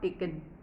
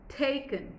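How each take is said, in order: First: The stress is on the second syllable. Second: The stress is on the first syllable. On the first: The speaker calls it wrong. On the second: The speaker calls it right. "Your focus is the first part of the syllable"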